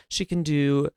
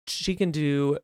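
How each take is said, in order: Both takes have the same delivery.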